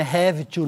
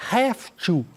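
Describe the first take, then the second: First: "have to" said the wrong way, with a voiced v, like "hev-i tu"; wrong pronunciation. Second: "Have to" run together as "haf-tu", with an f sound. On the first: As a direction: show the mistake: a full v in "have to". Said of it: "atenção à pronúncia, não é have to". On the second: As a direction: show the right way: "haf-tu" with f, not v. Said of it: "o som de F". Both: Shown as a demonstration.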